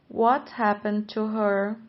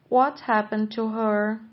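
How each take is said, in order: The two takes are said the same way.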